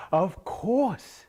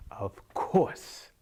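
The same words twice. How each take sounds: First: High, loud echoed "of course"; eager silly farmer's high voice; Saeed echoing. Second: Drawn-out, knowing "of course"; stretched old-woman voice; old wise woman. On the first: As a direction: parrot her, much higher and louder. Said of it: "And Saeed said". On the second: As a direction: say it as a mysterious old seer. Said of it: "and she said". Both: Acted.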